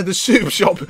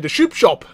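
First: Said in the usual way. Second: "soup" said as "shoop"; tongue-twisted "shoop shop" for "soup shop"; mispronounced soup. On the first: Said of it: "He said the soup shop". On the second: Real, not acted. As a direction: slip an sh sound onto the start of "soup". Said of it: "He said the soup shop again".

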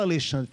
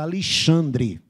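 First: Said in the usual way. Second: Slow Alexandre starting "Ali-", ending "dri"; carioca accent. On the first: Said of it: "Ele não fala Alexandre". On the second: Shown as a demonstration. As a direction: drawl Alexandre like a Rio native. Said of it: "como é que o carioca fala?".

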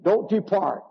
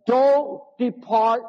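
First: Said in the usual way. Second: Slow and drawn out, leaning on "don't"; slow stressed warning. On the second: Shown as a demonstration. Preacher warning the congregation, slow and heavy. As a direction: stretch "don't depart" with weight on "don't".

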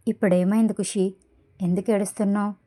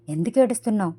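First: Anger held back in an even voice; understated restrained male-character question; controlled anger. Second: Mild narrated angry yell; understated shout, only slightly raised. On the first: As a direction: ask evenly, keeping anger in check. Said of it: "కోపాన్ని control చేసుకుంటూ normal వాయిస్తో". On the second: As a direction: demand it with a touch of anger. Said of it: "అని గట్టిగా అరుస్తూ". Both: A narrator's reading.

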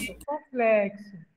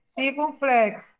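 First: Circunflexo slow and lower, corrective; correcting slowly. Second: Said in the usual way. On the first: Shown as a demonstration. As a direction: spell out Circunflexo to correct the pupil. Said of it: "Chapeuzinho em cima do O". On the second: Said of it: "O nome dele é circunflexo".

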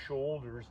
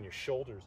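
First: SHOULDERS in a slightly drawn-out regional accent; regional American accent. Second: Said in the usual way. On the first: Real, not acted. Yoga teacher echoing her own word, regional American accent. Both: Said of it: "where I get that accent from".

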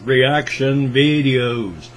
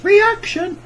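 First: Said in the usual way. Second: Reaction jumps up into a high squeak; voice cracking high. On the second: Acted. Sings reaction videos, voice cracks.

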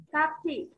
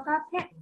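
First: "carpet" said carefully, with a clear t at the end; correct pronunciation. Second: "carpet" said the wrong way, with the final t dropped; wrong pronunciation. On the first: Teacher models the right "carpet" for the pupils, careful and clear. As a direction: say "carpet" properly, with a clear final t. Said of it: "từ này đọc là carpet". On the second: Teacher shows the pupils how not to say "carpet", mock wrong pronunciation. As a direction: mispronounce "carpet" with no t at the end, as the pupils did. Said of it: "đừng đọc là carpet". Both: Shown as a demonstration.

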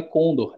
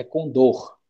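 First: Condor stressed on the first syllable, CON-dor; condor, wrongly stressed on CON. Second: Condor stressed on the last syllable, con-DOR; condor, correctly stressed on DOR; right stress. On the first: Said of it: "mas não é condor". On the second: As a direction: say condor with a strong final DOR. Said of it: "o som forte ficaria aqui". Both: Shown as a demonstration.

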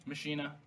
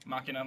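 First: Machina said "muh-SHEE-nuh"; Machina, middle syllable like "she". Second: Machina said "MAH-kih-nuh"; Machina, stressed on the first syllable. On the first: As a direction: say Machina with a soft sh for the ch. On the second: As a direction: say Machina with a hard k for the ch. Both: Shown as a demonstration. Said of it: "My dad pronounces it Machina".

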